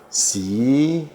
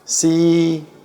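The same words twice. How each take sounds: First: It is said in the second tone. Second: It is said in the first tone. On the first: "Yang kedua" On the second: "yang pertama"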